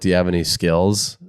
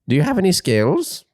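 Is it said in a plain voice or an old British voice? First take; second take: plain; old British. First: It is said in a plain voice. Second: It is said in an old British man's voice.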